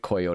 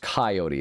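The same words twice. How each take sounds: First: The first vowel is an 'oh' sound, like coy. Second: The first vowel is an open 'ah' sound. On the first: The speaker calls it wrong. "it's funny to me to keep saying it Coyote" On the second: The speaker calls it right. "it's a much more like ah instead of an o sound"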